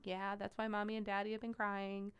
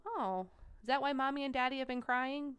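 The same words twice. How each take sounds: First: Gentle adult answer. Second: Higher, lightly voiced child's question; young child asking. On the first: Retold or imitated. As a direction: quietly confirm it for a little kid. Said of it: "You say". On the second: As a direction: ask as an innocent little kid would. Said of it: "And they go".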